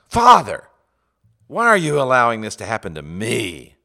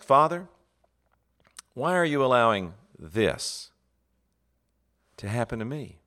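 First: The final word 'me' is stressed. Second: The final word 'me' is unstressed.

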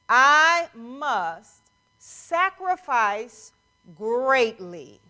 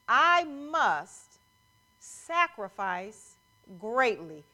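First: It is said very slowly. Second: It is said at a normal pace.

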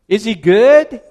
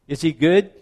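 First: It is asked with more energy and enthusiasm. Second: It is asked in a calmer, plainer way.

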